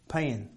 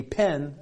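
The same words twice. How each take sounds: First: "Pen" with a Southern twang; Southern US accent. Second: Said in the usual way. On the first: Shown as a demonstration. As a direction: say "Pen" as they do down South, like pin. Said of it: "you know how they say it?". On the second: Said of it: "a pin for a needle or a".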